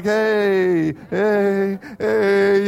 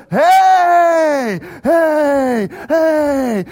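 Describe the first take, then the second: First: Half-hearted little heys; pitying cheer. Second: Loud, high, long hollers; mean it now, bellow each one; all-out cheer. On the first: Moms taking pity on junior highers, pitying cheer. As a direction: humour them with a token cheer. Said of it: "moms had pity on the junior hires". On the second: Whole section now really doing it, all-out cheer. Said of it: "from kind of this feigned and pity". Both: Retold or imitated.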